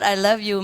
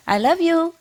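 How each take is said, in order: First: Said in the usual way. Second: High sing-to-the-pet voice; coaxing a pet bird. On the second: Retold or imitated. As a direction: coax the bird to talk, pitched high. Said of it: "And I say".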